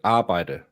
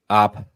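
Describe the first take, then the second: First: The word is said in full, with all syllables. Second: The word is cut short to one syllable. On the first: This is the usual form of the word. "normally arbejde, so that's a very long word" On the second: This is how the speaker's regional accent says it. "My accent, it's ab. We cut arbejde down to ab"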